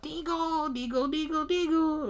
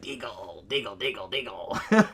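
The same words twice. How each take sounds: First: High whispery creature chant; mock her like a little puppet monster; mock gremlin chant. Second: Low muttering creature repeating the name; mock gremlin chant. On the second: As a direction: growl it like a little monster. Gremlin reads sign.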